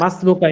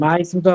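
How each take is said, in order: First: The two words are run together. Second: The two words are said separately. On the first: The speaker calls it right. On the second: The speaker calls it wrong.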